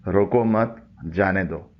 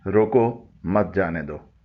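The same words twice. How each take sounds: First: "रोको मत" together, pause, then "जाने दो"; slowly, joining मत to रोको, then a gap; pause after मत. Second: "रोको", short pause, then "मत जाने दो" together; slowly, splitting रोको from मत जाने दो; pause after रोको. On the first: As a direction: break after मत, before जाने दो. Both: Shown as a demonstration. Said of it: "कामा आगे पीछे करने से".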